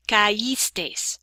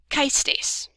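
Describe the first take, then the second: First: "caístes" as ca-ÍS-tes, three syllables, stress on the í; separated syllables. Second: "caístes" as KAIS-tes, ai in one stressed syllable; unaccented diphthong. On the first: Teacher models the same separation over here, "caístes" said ca-ÍS-tes. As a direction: keep ca apart from ís in "caístes". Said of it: "the same separation is gonna go on". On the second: Teacher shows what this would be without accent, "caístes" merged into KAIS-tes. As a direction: run ca and is together in "caístes", two syllables only. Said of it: "if we didn't have it".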